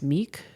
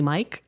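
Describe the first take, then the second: First: The vowel sounds like 'ee'. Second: The vowel sounds like 'eye'. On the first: "I'm just going to pronounce the first name as Meek" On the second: "It might be Mike"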